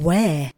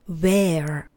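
First: It is said in a British accent. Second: It is said in an American accent. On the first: "Budu se držet britské" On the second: "Americká výslovnost pak"

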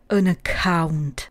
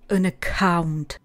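No difference in how they are said.

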